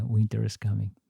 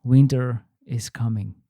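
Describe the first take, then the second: First: Low, quiet and foreboding; ominous. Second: Said in the usual way. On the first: Acted. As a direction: let it hang like a warning. Repeat, lower and quieter.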